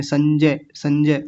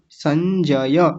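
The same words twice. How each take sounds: First: संजय clipped to sanjay; hurried संजय as the mistake; wrong rushed version. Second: संजय slow, final य full and open; correct form. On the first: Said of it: "जल्दबाजी में संजय कह देते हैं". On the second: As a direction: lengthen the य in संजय. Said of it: "य की आवाज़ जरूर आनी चाहिए पीछे". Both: Shown as a demonstration.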